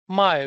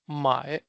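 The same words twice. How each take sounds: First: The syllable has a sharply falling tone. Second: The syllable has a low dipping tone. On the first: To sell. "this is my with fourth tone" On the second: To buy. "another my with third tone"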